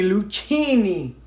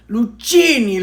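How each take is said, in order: First: Lucchini said slowly as loo-CHEE-nee; her own Lucchini. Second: Lucchini said loo-SHEE-nee, higher and louder; her own Lucchini. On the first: Repeating the name for viewers, slow loo-CHEE-nee. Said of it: "It's how my brain hears that word". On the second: Testing the brand name aloud for viewers, loo-SHEE-nee. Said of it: "I'm probably saying that wrong". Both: Shown as a demonstration.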